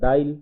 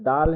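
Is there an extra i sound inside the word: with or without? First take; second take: with; without. First: The word is said with an inserted i sound. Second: The word is said without an inserted i sound.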